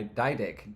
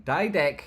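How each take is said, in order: First: Said in the usual way. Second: Name shouted high and loud; loud, high-pitched shout of a name; calling out. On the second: Real, not acted. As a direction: belt out the name. Calls out the viewer's name.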